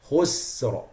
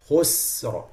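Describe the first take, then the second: First: The word ends with a clear r sound. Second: The word ends with a clear r sound.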